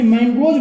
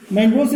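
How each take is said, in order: First: मैंग्रोव्स said as "mangoj" with a J ending; सही उच्चारण. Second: मैंग्रोव्स said as "mangos" with an S ending; गलत उच्चारण. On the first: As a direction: end मैंग्रोव्स on "oj" in place of "os". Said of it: "सही उच्चारण ये आपका है". (मैंग्रोव्स के अंत में "ज" की आवाज़) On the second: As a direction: end मैंग्रोव्स on a plain "os". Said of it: "मैंग्रोव्स नहीं". (मैंग्रोव्स के अंत में "स" की आवाज़) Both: Shown as a demonstration.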